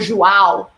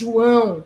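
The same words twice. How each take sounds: First: The A vowel is said very open. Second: The A vowel is said lowered, going down. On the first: The speaker calls it wrong. "which has the A very open" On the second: The speaker calls it right. "no, it's João. You go down with your A"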